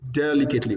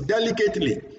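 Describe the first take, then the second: First: It is said with a standard English accent. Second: It is said with a Nigerian English accent. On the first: The speaker calls it right. "Can you hear my pronunciation?" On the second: The speaker calls it wrong. "when it comes to Nigerian language, we say"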